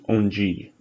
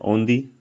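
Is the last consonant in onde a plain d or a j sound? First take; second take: j sound; plain d. First: The last consonant is a soft j sound. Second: The last consonant is a plain d sound. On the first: This is the common way of saying it. "it actually gives a G sound ... So it just becomes onde" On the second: This is a rare regional way of saying it. "some regions regions will actually say onde, onde, but that's pretty rare"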